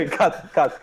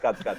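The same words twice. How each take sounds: First: Laughing while calling cut. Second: Said in the usual way. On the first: Real, not acted. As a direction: giggle through the words. Laughing, asking to cut clip.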